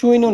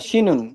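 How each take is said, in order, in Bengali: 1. এটা 'sw' ধ্বনি দিয়ে শুরু হয়, 'suinun'। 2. এটা 'sh' ধ্বনি দিয়ে শুরু হয়, 'shinun'। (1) "এর মানে এটা সুইনুন না" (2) "শিনুন হবে, রাইট। এটা হলো স্ট্যান্ডার্ড ওয়ার্ড।"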